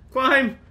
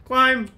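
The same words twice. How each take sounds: The two takes are said the same way.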